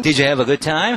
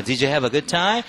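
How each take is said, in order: First: Louder model of "Did you have a good time?"; drilling the line. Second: Very slow "Did you have a good time?"; slower repeat. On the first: Teacher models the sitcom line for the class. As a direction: give it clearly, rising on "time". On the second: Teacher repeats slower for students to shadow. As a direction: draw it out so they can follow. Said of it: "한번 더". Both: Shown as a demonstration.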